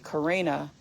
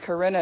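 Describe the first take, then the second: First: The name is said with an American pronunciation. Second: The name is said with a German pronunciation. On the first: This is what people at school called her. "everyone started calling me Karina" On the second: This is the name her mother gave her. "Karina is the proper pronunciation of my name"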